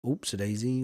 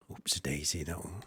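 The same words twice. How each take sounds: First: Said in the usual way. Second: Much lower and softer; low quiet repeat. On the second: Acted. Farmer repeating the hat name to himself, low and soft. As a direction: drop it low and under your breath.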